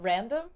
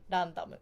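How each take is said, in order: First: It starts with an English-style r sound. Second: It starts with a flap between d and l.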